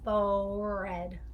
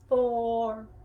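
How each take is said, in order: First: Both words are spoken in a normal voice. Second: The second word is mouthed without any sound. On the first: "So they say forehead" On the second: "we're gonna just mouth the word red"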